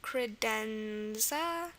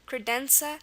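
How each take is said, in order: First: The middle consonant is a z sound. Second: The middle consonant is an s sound. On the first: "here it's a Z" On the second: "if you tried to imagine this word with an S here, it looks like it'd be pronounced credenza"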